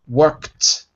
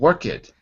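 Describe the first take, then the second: First: The ending is a plain t, one syllable. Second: The ending is said as an extra syllable. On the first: The speaker calls it right. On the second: The speaker calls it wrong.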